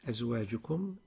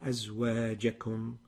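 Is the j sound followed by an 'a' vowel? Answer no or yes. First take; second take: no; yes. First: The j sound lacks the 'a' vowel. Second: The j sound takes an 'a' vowel. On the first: The speaker calls it wrong. "You pronounce it" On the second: The speaker calls it right. "The الجيم مفتوحة. ... is the right way"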